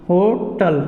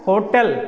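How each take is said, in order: First: "होटल" with weak ending, "HO-tal"; wrong pronunciation. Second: "होटल" with a clear e, "ho-TEL"; corrected pronunciation. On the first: Teacher showing a completely wrong habit, "होटल" as "ho-tal". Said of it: "जो complete गलत है". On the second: Teacher giving students the new form, corrected "ho-tel". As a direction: end "होटल" on "tel" instead of "tal". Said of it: "अब बोलेंगे हम लोग क्या". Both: Shown as a demonstration.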